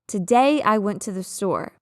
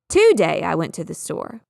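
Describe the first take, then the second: First: The stress is on the second syllable of today. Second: The stress is on the first syllable of today. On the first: The speaker calls it right. "the second one has stress or emphasis on it" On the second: The speaker calls it wrong. "mix that up and say it the other way"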